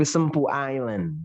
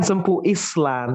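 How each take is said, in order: First: "Island" as "ai-land", silent S; correct island. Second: "Island" as "is-lan", S sounded; slow, firm "is-lan" for Island; wrong island. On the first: Teacher correcting, Island as "ai-land". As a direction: open "Island" on "eye", no S. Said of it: "tapi Sempu Island". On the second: Teacher warning against the mistake, Island as "is-lan". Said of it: "Jangan Sempu Island". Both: Shown as a demonstration.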